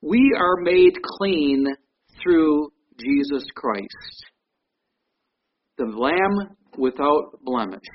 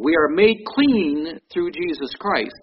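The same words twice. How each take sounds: First: Each word spaced out, slow and grave; slow and solemn. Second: Said in the usual way. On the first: Real, not acted. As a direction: lay it down slowly, with weight. Solemn slow statement of point.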